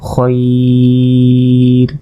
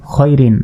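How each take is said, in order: First: "খয়র" stretched on one level note; elongated waqf. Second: Said in the usual way. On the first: Shown as a demonstration. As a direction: hold the "oi" of "খয়র" very long, ending on r. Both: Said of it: "ওয়াকফ করলে".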